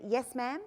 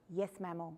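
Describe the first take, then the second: First: Yes, ma'am with a light Texan drawl on ma'am. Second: Yes, mammal, with ma'am stretched into mammal, said quietly; mock ma'am as mammal under the breath; quiet teasing mammal for ma'am; cheeky mispronunciation. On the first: Retold or imitated. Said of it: "I'm not Texan". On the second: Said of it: "And he goes".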